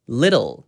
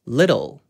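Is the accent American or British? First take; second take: American; American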